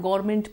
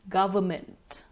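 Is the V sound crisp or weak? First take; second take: weak; crisp. First: The V sound is weak or dropped. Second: The V sound is crisp and clearly audible. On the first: The speaker calls it wrong. "Not government, please" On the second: The speaker calls it right. "we must make it a point to enunciate the V sound properly"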